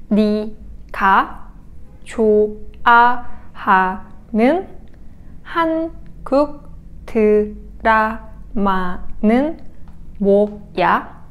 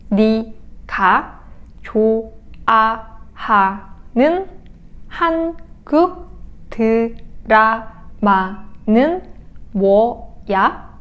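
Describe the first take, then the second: No difference in how they are said.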